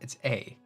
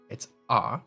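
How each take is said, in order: First: The vowel sounds like the letter name ay. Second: The vowel sounds like the open ah sound. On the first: "When you say it by yourself" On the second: "as part of the word father"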